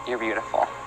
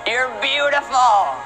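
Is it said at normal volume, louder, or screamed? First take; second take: normal; screamed. First: It is said at normal volume. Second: It is screamed in ecstasy.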